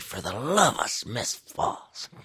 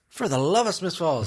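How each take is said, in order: First: It is said in an exasperated, cursing tone. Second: It is said in a happy, joyous tone. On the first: It is used as a curse. "It's it's like an F bomb" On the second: It is a cheerful expression of affection. "it could be joyous"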